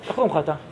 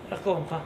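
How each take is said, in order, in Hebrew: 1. הטון חם ומאשר. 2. הטון קר ומזלזל. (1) "אם זה הברע, איך זה נראה?" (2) "רוצים לראות לא סימון חיובי?"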